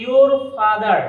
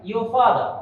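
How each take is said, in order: First: Slow your father with r's sounded; R pronounced. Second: Your father as "yo fada", no r; R silent. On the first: Teacher showing what not to say, slow r-ful your father. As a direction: stretch your father, letting the r's be heard. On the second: Teacher giving the correct form, your father without r. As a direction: say your father with both r's dropped. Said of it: "আর এর উচ্চারণটা হবে না". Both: Shown as a demonstration.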